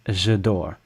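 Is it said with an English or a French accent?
English. The vowels are crushed, with an English sound. I'm sleeping. The speaker calls it wrong. "If you say it the English way"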